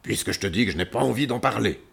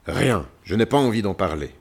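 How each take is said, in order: First: Fast, roared refusal; roaring lion. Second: Louder, grumbled refusal; grumbling lion. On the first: A narrator's reading. Lion pressed to talk snaps back, roaring. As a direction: roar it out in one rush. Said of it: "dit-il cette fois en rugissant". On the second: Acted. Lion refuses the visitors' help, grumbling. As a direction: grumble it out, closing the subject.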